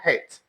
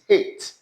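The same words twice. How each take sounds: First: The word starts with an h sound. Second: The word starts with a vowel sound. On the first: The speaker calls it wrong. "It's not hate" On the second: The speaker calls it right. "it's hate. Past tense of heat"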